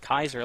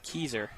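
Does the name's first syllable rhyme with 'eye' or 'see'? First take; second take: eye; see. First: The first syllable rhymes with 'eye'. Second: The first syllable rhymes with 'see'. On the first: This is how the speaker assumed it was said. The speaker calls it wrong. "I thought it was pronounced Kaiser, like the city" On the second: This is how the announcer said it. The speaker calls it right. "from the P A announcer, it said Keyser"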